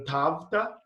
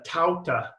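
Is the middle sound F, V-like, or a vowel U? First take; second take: V-like; vowel U. First: The middle sound falls between B and V. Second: The middle sound is a vowel U glide. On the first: This is the restored Koine pronunciation. "in between a B and a V" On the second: This is the Erasmian pronunciation. "in uh, Erasmian, uh, I believe it's a uh"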